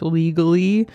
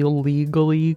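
First: Legally with air quotes, rising. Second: Said in the usual way. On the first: Shown as a demonstration. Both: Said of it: "quote unquote".

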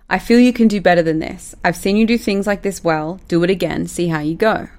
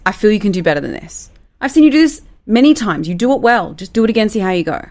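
First: Said in the usual way. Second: Higher and louder in the middle, encouraging; warm delivery. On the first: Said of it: "I'm gonna read something out". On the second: Shown as a demonstration. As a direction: lift the praise warmly. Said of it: "you can say it like this".

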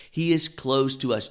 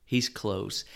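First: "is" pushed up and louder; "He is close" with the weight on "is"; stress on is. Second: Said in the usual way. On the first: Shown as a demonstration. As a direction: lean hard into "is", close to us.

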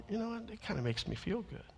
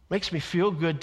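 First: Very soft, confiding aside; hushed little private admission; quiet aside. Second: Said in the usual way. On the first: Retold or imitated. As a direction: drop right down as if confiding in a colleague.

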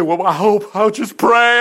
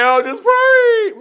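First: Mock timid prayer. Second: Much higher, loud, slow drawn-out wail on pray; mock the faint-hearted soldier, overdo it; hammed-up whiny prayer. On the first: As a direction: play the faint-hearted soldier who only hopes. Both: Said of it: "Notice he didn't say".

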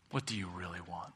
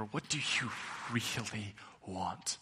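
First: Softer, inward "What do you really want?"; quiet question. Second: "really want?" drawn out slowly, leaning on "really"; slow emphatic question. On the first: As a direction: ask "What do you really want?" gently, almost to yourself. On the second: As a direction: stretch "really" and let "want?" fall soft and slow. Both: Shown as a demonstration. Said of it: "Not what do you think you should want".

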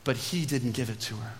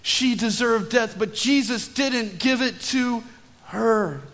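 First: Low, soft aside; hushed first take. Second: "Jesus didn't give it to her" raised high and drawn out; emphatic restatement. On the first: Preacher telling of mercy for the guilty woman, hushed. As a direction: drop low and soften the whole phrase. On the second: Preacher saying it again to the congregation, emphatic. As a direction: punch "Jesus" and stretch it out slowly up to "her". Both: Shown as a demonstration. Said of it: "Let me say that again".

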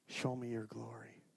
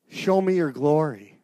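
First: Soft, low first ask; hushed plea. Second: Slow, louder insistent cry; loud plea. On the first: Moses asking God softly for his glory. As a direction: breathe the request quietly. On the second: Moses crying out to God for his glory. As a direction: lean into it and call out slowly. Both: Acted. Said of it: "show me your glory (repeat)".

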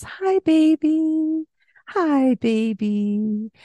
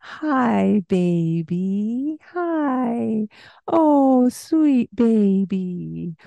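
First: High, slow, drawn-out greeting; baby talk. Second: High, slow, exaggerated cooing; baby talk. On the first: Mother greeting her baby in slow high baby talk. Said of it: "that higher pitch in our voice". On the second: Parent showing baby talk, high and slow. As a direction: overdo every sound for the baby. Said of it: "the exaggerated pronunciation". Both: Shown as a demonstration.

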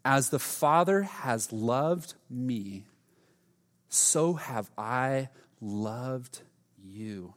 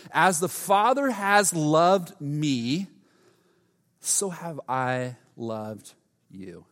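First: Very slow, soft reread of the verse; slower and quieter reading. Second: Slow, deliberate scripture reading; solemn reading. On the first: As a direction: breathe it in, let it sink. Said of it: "take a breath. Let's read this again". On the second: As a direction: let each word land. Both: Real, not acted.

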